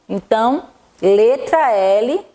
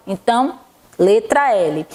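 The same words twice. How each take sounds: The two takes are said the same way.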